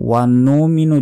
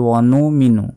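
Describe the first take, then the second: No difference in how they are said.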